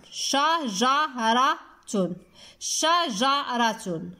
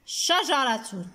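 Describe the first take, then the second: First: شجرة slowly as sha, ja, ra, tun; split into syllables. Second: Said in the usual way. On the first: Shown as a demonstration. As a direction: separate the four beats of شجرة. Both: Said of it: "في المقطع الثاني".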